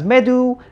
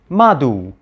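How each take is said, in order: First: The first vowel is an 'e' sound. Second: The first vowel is an 'a' sound. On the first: This is the conventional modern scholarly pronunciation. "we Egyptologists pronounce this word as medu" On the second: This is the reconstructed ancient pronunciation. "the ancient Egyptians would have actually pronounced this word as madu"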